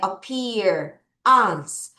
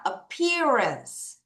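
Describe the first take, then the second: First: "appear", a break, then "ans" on its own; split into chunks. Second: "appearance" run together as one smooth word; read straight through. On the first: Teacher has pupils repeat in parts, "appear" / "ans" broken apart. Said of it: "여기까지 끊어 읽을게요". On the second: Teacher leads pupils through the whole word, "appearance" unbroken. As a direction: join it up without a break: "appearance". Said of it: "쫙 한번 읽어볼게". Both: Shown as a demonstration.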